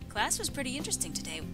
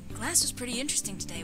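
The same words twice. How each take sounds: First: It is said in the speaker's own normal voice. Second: It is said in a put-on character voice. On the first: The speaker calls it wrong. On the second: The speaker calls it right.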